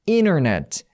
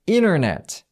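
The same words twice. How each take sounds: No difference in how they are said.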